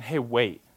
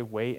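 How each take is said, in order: First: Offhand, matter-of-fact command; brusque order. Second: Soft, low, loving instruction; tender. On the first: God merely telling you to wait, brusque. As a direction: simply tell them to wait, no tenderness. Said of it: "he's not just saying". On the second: God telling you to wait in love, tender. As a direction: gently ask them to be patient. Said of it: "in that tone". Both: Acted.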